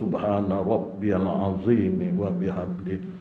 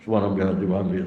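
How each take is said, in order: First: It is said slowly and every sound clearly. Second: It is rushed and hard to hear clearly.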